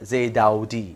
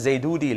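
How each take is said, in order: First: The middle vowel is an 'au' glide. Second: The middle vowel is a plain 'oo'. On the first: The speaker calls it right. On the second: The speaker calls it wrong.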